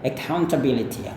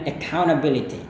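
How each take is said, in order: First: The t sound in the middle is pronounced. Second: The t sound in the middle is dropped. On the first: "Anda juga bisa lafalkan dengan T-nya" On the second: "tadi hilangkan T-nya"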